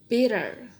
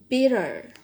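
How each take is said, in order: Both takes have the same delivery.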